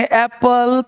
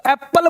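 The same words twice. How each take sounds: First: एप्पल with one light p, "ae-pal"; smooth "ae-pal" for एप्पल; single consonant. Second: एप्पल with both p's held, "ap-pal"; wrong, geminated एप्पल; doubled consonant. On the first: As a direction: say एप्पल without doubling the p. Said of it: "बोलेंगे". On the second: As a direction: stop on the p in एप्पल. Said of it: "बोलना गलत होगा". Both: Shown as a demonstration.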